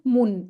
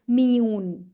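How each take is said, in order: First: The vowel is a plain back 'oo' sound. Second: The vowel is a fronted, rounded 'ü' sound. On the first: The speaker calls it wrong. "it's not mun" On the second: The speaker calls it right. "it's miun"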